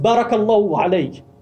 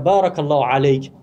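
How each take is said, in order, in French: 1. La première voyelle de baraka est brève. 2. La première voyelle de baraka est longue.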